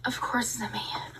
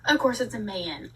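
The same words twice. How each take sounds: First: Whispered aside; whispered repeat of a bitter line. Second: Said in the usual way. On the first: Shown as a demonstration. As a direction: breathe it out like a secret.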